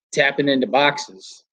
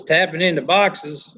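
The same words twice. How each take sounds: First: Said in the usual way. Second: Attempted Southern drawl, slowly; Southern accent. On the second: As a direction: imitate a Southerner, drawing the words out. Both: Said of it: "he's got a real Southern accent".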